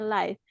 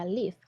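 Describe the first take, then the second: First: The vowel sounds like the one in five. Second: The vowel sounds like the one in give. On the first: It means broadcast in real time. "Itu baru dibacanya live" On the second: It means to reside somewhere. "dibacanya live, pakai i"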